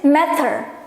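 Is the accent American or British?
British. It is said in a British accent.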